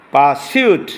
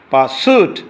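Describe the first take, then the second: First: পারসিউট with a "syoot" glide; British pronunciation. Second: পারসিউট with a plain "soot", no glide; American pronunciation. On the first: Teacher contrasts two accents for students, British pronunciation. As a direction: say পারসিউট as "paa-syoot", rising. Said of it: "এটা British". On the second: Teacher contrasts two accents for students, American pronunciation. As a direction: say পারসিউট as "paa-soot", rising. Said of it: "এটা American উচ্চারণ". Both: Shown as a demonstration.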